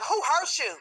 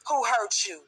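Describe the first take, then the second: First: It is asked in a condescending, sarcastic tone. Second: It is asked in a sincere, caring tone. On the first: The asker is mocking rather than caring. "In a condescending way, very sarcastic like" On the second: The asker genuinely wants to know and help. "y'all really want to know who hurt you"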